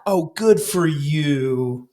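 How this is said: It sounds sarcastic and nasty.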